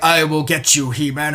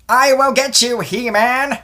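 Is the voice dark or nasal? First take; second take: dark; nasal. First: The voice is dark and menacing. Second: The voice is nasal and whiny. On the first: The villain sounds threatening. "in like a dark Shredder type voice" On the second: The villain sounds like a nerd. "He has the nasally, like whiny"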